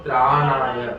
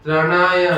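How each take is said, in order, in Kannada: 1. ಮೊದಲ ಸ್ವರ ದೀರ್ಘವಾಗಿ ಹೇಳ್ತಾರೆ. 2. ಮೊದಲ ಸ್ವರ ಹ್ರಸ್ವವಾಗಿ ಹೇಳ್ತಾರೆ. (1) "ಅದಿರುವುದೇನು ತ್ರಾಣಾಯ" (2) "ತ್ರಣಾಯ ಅಂತ ಹೇಳ್ತಾರೆ ಬಹಳ ಜನ"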